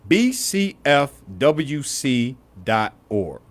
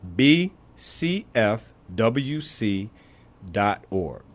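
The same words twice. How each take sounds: First: It is said at a normal, quicker pace. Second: It is said slowly.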